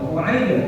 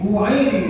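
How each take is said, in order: First: The final bounce leans toward an a sound. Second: The final bounce leans toward an i sound. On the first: This follows the most widely held opinion. "condong pada harokat fathah" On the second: This follows a less common opinion. "pantulannya condong pada harokat kasroh"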